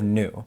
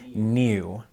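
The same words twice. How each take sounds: First: It is said in an American accent. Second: It is said in a British accent. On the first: The accent is held correctly. The speaker calls it right. "instead of new" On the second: The actor slipped out of the accent. The speaker calls it wrong. "she says new"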